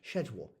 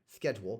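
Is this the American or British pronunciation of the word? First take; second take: British; American. First: It is said with the British pronunciation. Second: It is said with the American pronunciation. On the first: It follows a French-influenced pronunciation. "a pronunciation influenced by French, schedule, in the United Kingdom" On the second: It follows the original Greek-based pronunciation. "the original Greek-based pronunciation, schedule, in the United States"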